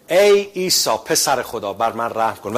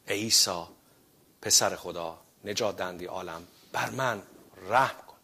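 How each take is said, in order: First: Loud prayer quote. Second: Much softer, lower, humble prayer «ای عیسی»; prayed with faith. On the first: Shown as a demonstration. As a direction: proclaim the prayer to the congregation. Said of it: "اون این بود که". (دعای بلند و شمرده) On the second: Acted. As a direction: pray it quietly as if alone with God. (دعای آرام و فروتنانه با ایمان)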